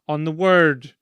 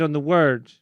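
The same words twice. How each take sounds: First: The voice rises at the end. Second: The voice falls and lands at the end. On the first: The point is left hanging. The speaker calls it wrong. "you're going up" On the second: The point is made firmly. The speaker calls it right. "end on the word"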